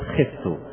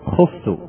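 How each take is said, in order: First: The first vowel is an i sound. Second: The first vowel is a u sound. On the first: It shows the middle vowel of the pattern. The speaker calls it right. "ولو أردنا أن نبين الكسر التي في الوسط ماذا نقول؟" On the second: It shows the root has a waw. The speaker calls it wrong. "فلو أردنا أن نبين أنها من بنات الواو فماذا نقول؟"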